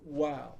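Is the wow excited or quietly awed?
awed. It is a quiet, thoughtful, awed wow.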